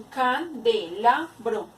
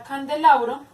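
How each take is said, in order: First: CANDELABRO slowly, broken into can, de, la, bro; can... de... la... bro, with small gaps; split into syllables. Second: Said in the usual way. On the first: Shown as a demonstration. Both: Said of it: "se divide en".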